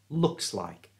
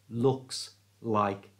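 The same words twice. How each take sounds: First: The S runs smoothly into the next word. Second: The S is cut off from the next word. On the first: The speaker calls it right. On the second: The speaker calls it wrong.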